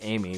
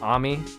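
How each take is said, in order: First: The name is said like the English name Amy. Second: The name is said in its original, non-English way. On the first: "I'm pronouncing it Amy because U S A" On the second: "Isn't it pronounced Ami?"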